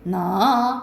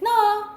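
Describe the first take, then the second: First: The syllable starts low and rises to high. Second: The syllable is said on a high level pitch. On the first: "낮았다가 높아지는 거야" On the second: "점이 이렇게 있으면 나 이렇게 되는 거지"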